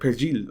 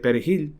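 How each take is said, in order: First: The j is a soft sound. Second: The j is a harsh throaty sound. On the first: The speaker is taken for a Haitian. "the J has a softer sound" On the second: The speaker is taken for a native Spanish speaker. "which is a Spanish pronunciation"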